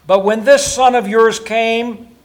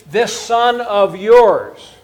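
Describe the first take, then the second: First: Slow, weighty "this son of yours"; stress on this son of yours. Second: "this son of yours" drawn out very slowly, each word weighted; slow stress on this son. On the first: Preacher stressing the son's cold words, slow and pointed. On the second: Preacher repeating the son's cold phrase, slowly. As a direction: stretch "this son of yours" out, disdainful. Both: Shown as a demonstration. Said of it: "you see".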